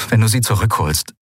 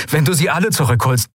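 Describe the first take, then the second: First: Said in the usual way. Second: "alle" lifted higher as a correction; stress on alle. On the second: A narrator's reading. Man persuading his comrade to rescue everyone, stress on "alle". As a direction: lean on "alle", raising the pitch.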